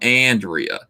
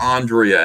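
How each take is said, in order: First: The name is said with a New Jersey accent. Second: The name is said with a general American accent. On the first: "here in New Jersey, I'm Andrea" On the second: "Andrea anywhere else"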